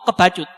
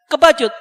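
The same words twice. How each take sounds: First: Said in the usual way. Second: Kebacut repeated louder and higher; emphatic repeat. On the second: Shown as a demonstration. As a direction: hammer the word Kebacut home. (Kebacut diulang lebih keras dan tinggi)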